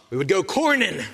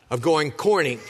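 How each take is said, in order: First: Corning said in a light Pittsburgh accent, a local twang. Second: Said in the usual way. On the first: Shown as a demonstration. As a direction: give corning a hint of Pittsburgh. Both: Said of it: "You gotta say it with a P-, Pittsburgh accent".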